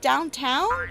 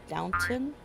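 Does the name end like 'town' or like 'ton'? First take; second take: town; ton. First: The name ends with a 'town' sound. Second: The name ends with a short 'ton' sound. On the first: The speaker calls it wrong. "is it downtown?" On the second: The speaker calls it right. "I don't think there's a W in it"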